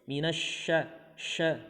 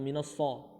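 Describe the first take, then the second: First: The consonant is a sh sound. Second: The consonant is a plain s sound. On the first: The speaker calls it right. "huruf shin" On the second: The speaker calls it wrong.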